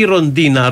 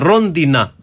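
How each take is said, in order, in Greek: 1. Ο τόνος πέφτει στη δεύτερη συλλαβή. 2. Ο τόνος πέφτει στην πρώτη συλλαβή. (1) "όχι Ροντίνα" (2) "το σωστό είναι Ρόντινα"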